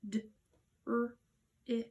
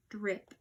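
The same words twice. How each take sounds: First: DRIP split into separate sounds, d, r, i, p; one sound at a time, pausing after each. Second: Said in the usual way. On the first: Shown as a demonstration. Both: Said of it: "Let's spell that out".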